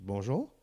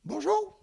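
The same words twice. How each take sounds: First: Said in the usual way. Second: High, tiny little voice of a small woman; a petite woman greeting him in a very high little voice; tiny woman's voice. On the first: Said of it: "Je dis". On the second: Retold or imitated. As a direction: squeak it out like a four-foot lady. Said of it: "elle a une petite voix".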